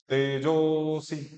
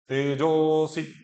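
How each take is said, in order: The two takes are said the same way.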